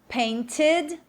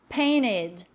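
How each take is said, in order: First: The T is clearly pronounced, British style. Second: The T is dropped, American style. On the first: "o T bem marcado aí, mais britânico" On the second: "Já mais norte-americano, ... O T some"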